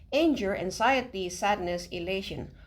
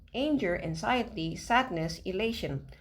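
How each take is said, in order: The two takes are said the same way.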